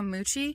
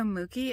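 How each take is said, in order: First: The middle consonant is a ch sound. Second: The middle consonant is a hard k sound. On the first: The speaker calls it right. "It's actually Studio Moochie" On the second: The speaker calls it wrong. "I kept saying Studio Mookie"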